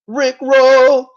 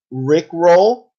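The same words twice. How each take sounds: First: High, loud, gleeful shout; excited shout. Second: Said in the usual way. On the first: Acted. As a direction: belt out the pun like a hype man. Repeats pun, then shouts it.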